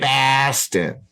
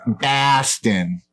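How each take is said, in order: First: Boston said as pahstin again, higher, different timbre; a light Boston accent. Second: Boston said as pahstin, higher; mock Boston accent on the city name; a light Boston accent. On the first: Pretend. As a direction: repeat the name in a hammed Boston accent. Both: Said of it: "That's my Boston accent".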